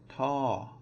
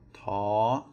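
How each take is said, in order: First: The syllable's pitch drops from high to low. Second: The syllable is said on a high pitch. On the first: "then it is going to be a falling tone" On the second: "then it is going to be a high, a high tone"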